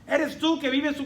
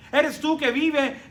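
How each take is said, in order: Both takes have the same delivery.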